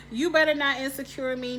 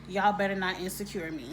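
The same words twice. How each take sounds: First: Higher and louder warning; emphatic warning. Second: Said in the usual way. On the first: Real, not acted. Warning the show's writers, loud and emphatic. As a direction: warn the writers firmly. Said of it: "repeats louder". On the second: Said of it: "the first thing I think is".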